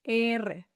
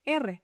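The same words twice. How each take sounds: First: R said slowly as a long "eeh-reh"; slow, level "R" for learners; drawn-out letter name. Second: Said in the usual way. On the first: Shown as a demonstration. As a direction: stretch the first vowel of Spanish "R". Letter name drawn out, then normal.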